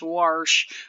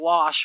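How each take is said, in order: First: It is said with a Southern pronunciation. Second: It is said in a standard, non-Southern way.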